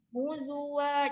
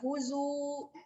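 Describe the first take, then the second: First: The word ends with a pronounced 'a' vowel. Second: The word ends without the final 'a' vowel. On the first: The speaker calls it right. "Tapi ini dibaca karena ada fathah tanwin di atasnya" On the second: The speaker calls it wrong. "kenapa enggak huzu?"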